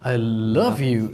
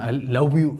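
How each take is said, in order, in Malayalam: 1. v ശബ്ദം ഉണ്ടാക്കുന്നത് മുകളിലെ പല്ല് താഴത്തെ ചുണ്ടിൽ വെച്ചാണ്. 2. v ശബ്ദം ഉണ്ടാക്കുന്നത് w പോലെ വട്ടത്തിലുള്ള ചുണ്ടുകൊണ്ടാണ്. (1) "എന്ന് പറയണം" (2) "എന്ന് പറയല്ലേ"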